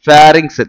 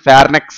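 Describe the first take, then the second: First: It is said with 'rinks' in the second syllable. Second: It is said with 'neks' in the second syllable. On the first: The speaker calls it right. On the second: The speaker calls it wrong.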